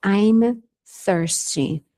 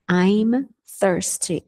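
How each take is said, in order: First: Said in the usual way. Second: "I'm thirsty" drawn out slowly, each sound clear; slow careful "I'm thirsty" model; slow demo. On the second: Shown as a demonstration. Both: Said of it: "A mesma coisa com sede".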